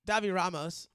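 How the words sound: The name is read out as English spelling. This is how the speaker chooses to say it. "I'm just gonna say it the way it's spelled"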